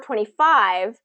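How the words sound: The stress falls on five. It is a number said while counting. "the new information is that second syllable"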